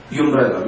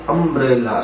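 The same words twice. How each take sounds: First: "umbrella" said wrongly as yoo-mbrella, with a "you" sound at the start; wrong pronunciation. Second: "umbrella" said correctly as uhm-brella, with a short "uh" at the start; correct pronunciation. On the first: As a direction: say "umbrella" with a "yoo" sound first, as the mistake to avoid. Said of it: "We don't pronounce it as". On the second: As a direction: open "umbrella" with a short "uh" vowel, not "yoo". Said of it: "We say umbrella". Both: Shown as a demonstration.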